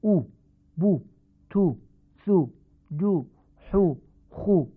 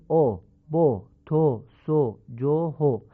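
First: او، بو، تو with a short "u"; clipped "u, bu, tu, thu, ju, hu, khu" for او، بو، تو; short oo, not o, in او، بو، تو; Arabic damma. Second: او، بو، تو with an "o" vowel; short syllables "o, bo, to, so, jo, ho" for او، بو، تو; Persian damma. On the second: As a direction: Persian rounded o in each of او، بو، تو. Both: Shown as a demonstration.

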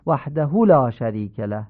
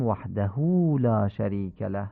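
First: «وحده» said waḥdah with hu cut short; ending hu left unlengthened; clipped wrong vowel. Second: «وحده» said waḥdahū with the hu drawn long; proper ishba on «وحده»; lengthened final hu. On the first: Teacher shows listeners the mistake, final vowel clipped. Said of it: "این غلطه". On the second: Teacher models the correct form, final vowel lengthened. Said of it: "باید بگیم". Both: Shown as a demonstration.

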